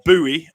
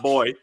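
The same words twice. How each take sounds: First: It is said the American way. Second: It is said the British way.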